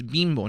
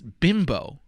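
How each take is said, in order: First: The name is said with a Spanish accent. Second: The name is said with an English accent. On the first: "Like you say it with like a Spanish accent" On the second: "but in English it's Bimbo"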